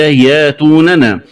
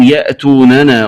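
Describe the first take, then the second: First: ياتوننا with long yaa, no glottal stop; hamza as alif. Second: Said in the usual way. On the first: Shown as a demonstration. Teacher showing the variant, ياتوننا without hamza. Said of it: "الهمزة ألفا مادية". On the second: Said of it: "قرأها بإبدال".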